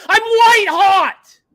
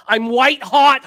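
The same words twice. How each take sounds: First: Slow, much higher and louder roar; full-throated boast at the peak; triumphant shout. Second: Louder and higher, building up; first, loud take of the brag; hyped boast. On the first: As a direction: bellow it like a victory cry. Repeats brag as huge shout. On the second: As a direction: crank it up for the first time. Brags, then repeats as shout. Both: Real, not acted.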